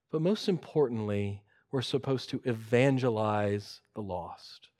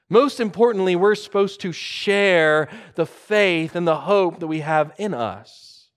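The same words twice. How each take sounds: First: Soft, low statement of a key point; understated emphasis. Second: Louder, raised restatement of a key point; emphatic preaching. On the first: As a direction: bring it down low and earnest. Key point stated softly, then repeated. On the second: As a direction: drive it home with force. Same point repeated with force. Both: Real, not acted.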